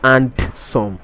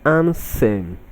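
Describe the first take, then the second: First: The word is said with a D sound. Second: The word is said without a D sound. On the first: The speaker calls it wrong. "not and some" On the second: The speaker calls it right. "The D in this word is silent"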